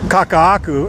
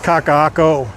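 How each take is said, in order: First: The last syllable ends with a 'ku' sound. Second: The last syllable ends with a 'ko' sound. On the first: The speaker calls it wrong. "Kaka'aku instead of Kaka'ako" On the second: The speaker calls it right. "it's Kaka'ako neighborhood"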